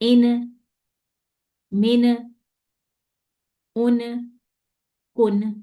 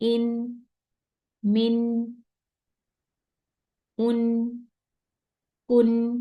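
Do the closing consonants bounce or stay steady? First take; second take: bouncing; steady. First: The closing consonants bounce with a shaken voice. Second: The closing consonants are held steady without bouncing. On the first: The speaker calls it wrong. "ये सारे रॉन्ग हो गए" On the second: The speaker calls it right. "Simple."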